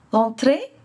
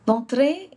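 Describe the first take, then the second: No difference in how they are said.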